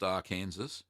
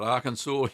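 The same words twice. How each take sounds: First: Arkansas said as ar-KANSAS; wrong pronunciation. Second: Arkansas said as AR-kan-saw; correct pronunciation. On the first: Streamer shows viewers the mistaken reading of Arkansas, ending like Kansas. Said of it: "not pronounced Arkansas". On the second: Streamer corrects the state name for viewers, Arkansas ending in "saw". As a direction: end Arkansas in "saw", final s silent. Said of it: "not pronounced Arkansas, but Arkansas". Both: Shown as a demonstration.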